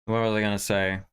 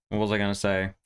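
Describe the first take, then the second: No difference in how they are said.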